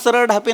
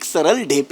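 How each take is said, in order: First: The surname's first vowel is an 'a' sound. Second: The surname's first vowel is an 'e' sound. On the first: The speaker calls it wrong. "नाहीये" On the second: The speaker calls it right. "असं नाव आहे"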